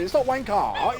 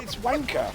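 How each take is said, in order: First: Wanker with an A at the end, rising; mock the wanker with a rhotic end; wrong version. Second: Wanker with soft falling non-rhotic end; right version. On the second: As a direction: give the British wanker. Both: Shown as a demonstration. Explaining the spelling to the friend. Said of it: "not an A at the end and an R".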